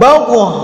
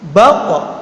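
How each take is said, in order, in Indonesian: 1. Konsonan akhir dilepas dengan vokal. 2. Konsonan akhir dihentikan dan ditahan. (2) "jadi suaranya terta, tertahan"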